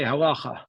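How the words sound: It is said with a Yiddish-style yeshiva pronunciation. This is how diaspora yeshiva speakers say it.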